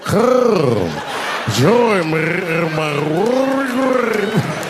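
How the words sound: It is said with a rolling, throaty voice.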